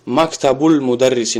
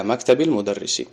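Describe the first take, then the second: First: Мактабул with an u ending, damma; wrong case ending. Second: Мактабил with an i ending, kasra; kasra case ending. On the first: Teacher shows the ending not used, мактабул with damma. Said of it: "ба замма нагуфтем". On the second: Teacher models the phrase after the preposition, мактабил with kasra. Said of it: "касра мета". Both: Shown as a demonstration.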